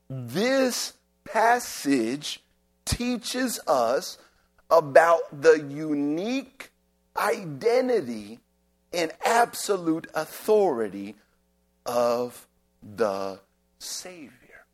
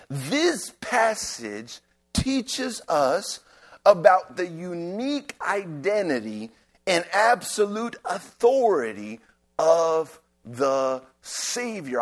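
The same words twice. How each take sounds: First: It is said slowly and deliberately. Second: It is said at a normal pace.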